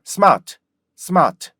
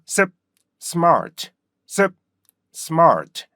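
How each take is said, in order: First: Smart begun on a loose "seu", r dropped; started with 스. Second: Stopped 습, then smart falling with r; started with 습. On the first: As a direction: say smart as smaht, high fall. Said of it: "스로 가면 어떻게 돼요". (스로 시작한 R 없는 smart) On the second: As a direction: cut 습, pause, release smart. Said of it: "이렇게 발음하셔야 되고요". (습 끊고 R 살려 smart) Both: Shown as a demonstration.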